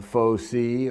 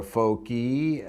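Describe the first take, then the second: First: Faux C said slowly as FOH-see; soft c. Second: Faux qui said slowly as FOH-kee; hard c. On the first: Lecturer working out a Latin plural, faux C as FOH-see. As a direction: say "faux C" with an s sound. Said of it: "it would have given me". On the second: Lecturer applying his hard C, faux qui as FOH-kee. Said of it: "C I was a hard C". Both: Shown as a demonstration.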